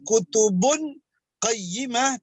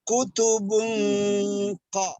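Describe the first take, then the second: First: The n sound is pronounced clearly before q. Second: The n sound is hidden and nasal before q. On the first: The speaker calls it wrong. "bukan kutubun qayyimah" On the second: The speaker calls it right. "suara nun mati atau tanwin menjadi samar-samar"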